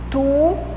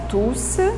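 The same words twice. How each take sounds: First: The final S sound is silent. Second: The final S sound is pronounced. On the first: The word is used as an adjective. "On ne prononce pas le S final de tout quand il est adjectif" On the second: The word is used as a pronoun. "on prononce le S final de tous quand il est pronom"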